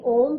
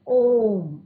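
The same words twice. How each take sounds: First: The vowel is held at double length. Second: The vowel is held at triple length. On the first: The speaker calls it wrong. "ना ही ओम कहते हैं" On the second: The speaker calls it right. "हम ओम"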